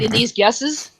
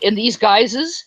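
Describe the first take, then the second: First: "guesses" with a short "eh" in place of "guises"; misreading as guesses. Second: "guises" with a long "eye" vowel; intended word guises. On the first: Host quoting Ronnie's slip, mispronounced "guesses". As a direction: misread it as "guesses", rhyming with dresses. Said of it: "and he said". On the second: Host quoting the intended word, clearly pronounced "guises". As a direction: say "guises" to rhyme with prizes. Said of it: "he was meant to say guises". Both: Retold or imitated.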